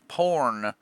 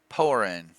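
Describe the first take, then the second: First: The word is squeezed into one syllable. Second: The word is clearly said in two syllables. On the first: The speaker calls it wrong. "not porn" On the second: The speaker calls it right. "You got to really enunciate that"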